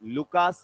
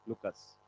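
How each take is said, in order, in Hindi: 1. दूसरा स्वर लंबा है, 'kaas' जैसा। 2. दूसरा स्वर छोटा है, 'kus' जैसा। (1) "इंडिया में लुकास बोलते हैं" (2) "दूसरे जो कंट्री के हैं वो लुकस बोलते हैं"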